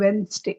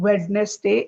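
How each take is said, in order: First: Wednesday as WENS-day; Wednesday in two syllables; silent D. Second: Wednesday as WED-nes-day; spell-it-out reading of Wednesday; wrong pronunciation. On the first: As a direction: drop the first d in Wednesday. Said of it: "D is silent". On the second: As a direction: sound the d in Wednesday, three syllables. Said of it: "this word is not Wednesday". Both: Shown as a demonstration.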